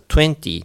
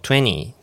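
First: The t after the n is pronounced. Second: The t after the n is dropped.

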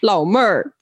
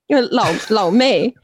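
First: The second syllable ends with an r sound. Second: The second syllable ends without an r sound.

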